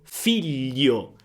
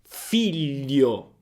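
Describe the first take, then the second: No difference in how they are said.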